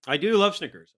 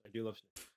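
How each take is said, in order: First: Said in the usual way. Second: Much softer, to himself; murmured repeat; quiet aside. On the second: Real, not acted.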